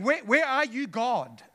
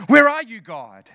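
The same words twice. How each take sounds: First: Said in the usual way. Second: A louder cry to God with a laugh, then dropping away; louder anguished plea. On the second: Acted.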